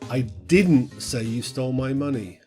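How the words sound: The word "didn't" is stressed. The claim is firmly denied. "Now this sort of emphasizes the negative"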